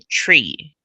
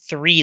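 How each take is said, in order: First: The word begins with a plain 't' sound. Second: The word begins with a 'th' sound. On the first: "they all say tree" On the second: "It's called Three Lakes"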